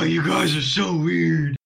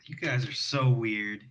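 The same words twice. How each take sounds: First: It is said loudly, with a full chest voice. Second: It is said quietly, without much force. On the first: The speaker calls it right. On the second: The speaker calls it wrong.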